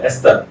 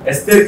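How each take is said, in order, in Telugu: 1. రెండవ అక్షరంలో హ్రస్వమైన, తగ్గిన అచ్చు ఉంది. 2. రెండవ అక్షరంలో దీర్ఘమైన 'ay' అచ్చు ఉంది.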